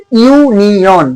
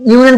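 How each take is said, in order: First: ইউনিয়ন slowly, in separate syllables; ইউনিয়ন drawn out to show the opening ইউ; sounded-out pronunciation. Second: Said in the usual way. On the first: Shown as a demonstration. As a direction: stretch ইউনিয়ন into ইউ-নি-অন. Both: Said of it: "উচ্চারণটা কিরকম হচ্ছে".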